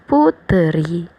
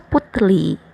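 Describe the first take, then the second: First: An extra vowel comes before an R sound. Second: The consonant before the final vowel sounds like L. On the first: The speaker calls it right. "dipisahkan ke satu suku kata baru lagi dan ditambahin e" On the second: The speaker calls it wrong. "bukannya putri dibacanya jadinya putli"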